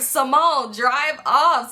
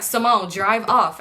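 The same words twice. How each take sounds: First: Higher, laughing through the urging. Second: Slow, drawn-out mock urging of Simone. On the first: Retold or imitated. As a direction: crack up while repeating the order. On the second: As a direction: drag it out, impatient but lightly voiced. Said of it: "They like".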